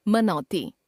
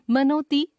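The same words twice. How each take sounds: First: Said in the usual way. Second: मनोती with closed "no"; mispronounced au. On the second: Shown as a demonstration. Teacher showing a common error, मनोती with o for au. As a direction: put "o" for "au" in मनोती. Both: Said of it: "ओ, औ संबंधी अशुद्धियां".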